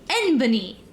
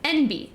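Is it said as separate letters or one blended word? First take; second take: blended word; letters. First: It is said as one three-syllable word. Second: It is said as two separate letters. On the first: The speaker calls it wrong. "I for the longest time pronounced it as Enbany" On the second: The speaker calls it right. "That's what it is"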